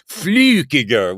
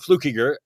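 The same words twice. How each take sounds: First: The first vowel is a rounded Swiss ü. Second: The first vowel is a plain English oo. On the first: This is the original Swiss form of the name. "was pronounced Flukiger with that Q" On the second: This is the form the family uses now. "that was long since dropped"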